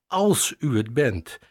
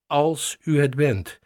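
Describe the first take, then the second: First: Said in the usual way. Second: "u" lifted and leaned on, the rest lighter; stress on u. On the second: Shown as a demonstration. Pastor repeats Peter's words, stressing "u" to show his doubt. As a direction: hit the word "u" to show the doubt. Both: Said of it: "daar twijfelt Petrus aan".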